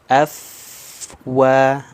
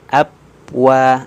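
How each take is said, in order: First: Upper teeth touch the lower lip, giving f. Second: Both lips close together, giving p. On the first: The speaker calls it right. "Nah, af, wa" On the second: The speaker calls it wrong.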